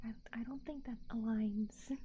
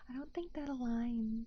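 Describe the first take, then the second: First: Whispered under the breath. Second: Said in the usual way. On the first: Shown as a demonstration. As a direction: say it in an unvoiced whisper.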